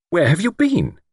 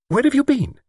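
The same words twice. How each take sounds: First: High, impatient question. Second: High-pitched, sharp question. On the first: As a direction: press for an answer with mounting impatience. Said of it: "repeated her question impatiently". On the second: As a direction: demand it sharply in a much higher voice. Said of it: "she said sharply". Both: A narrator's reading.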